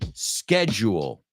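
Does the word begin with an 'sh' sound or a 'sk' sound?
sk sound. The word begins with a 'sk' sound. "So American English, schedule, schedule, una K"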